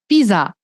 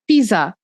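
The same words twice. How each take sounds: The two takes are said the same way.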